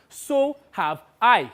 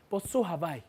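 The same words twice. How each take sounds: First: "So have I" slow, higher, each word weighted; emphatic repeat. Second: Said in the usual way. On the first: Acted. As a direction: stretch out "So have I" with force.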